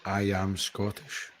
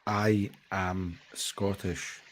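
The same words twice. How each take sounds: First: I am Scottish said slowly and softly; a patient, quiet model phrase; slow demo. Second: I am Scottish said slowly and softly; a slow, quiet model phrase; slow demo. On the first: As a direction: lay it out slowly, word by word. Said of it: "if he can say". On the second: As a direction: spell out each word of I am Scottish for him to copy. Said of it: "Can you say". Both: Shown as a demonstration.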